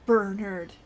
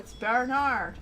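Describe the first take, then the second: First: The name is said with an English pronunciation. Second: The name is said with a French pronunciation. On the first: The speaker calls it wrong. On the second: The speaker calls it right.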